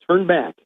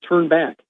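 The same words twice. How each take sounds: No difference in how they are said.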